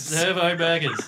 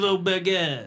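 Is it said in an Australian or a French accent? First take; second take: Australian; French. First: It is said in a plain Australian accent. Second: It is said in a put-on French accent.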